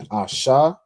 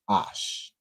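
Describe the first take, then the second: First: It ends with a vowel after the sh sound. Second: It ends on the sh sound, no vowel. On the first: The speaker calls it wrong. "instead of being Asha" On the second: The speaker calls it right. "it just becomes Ash"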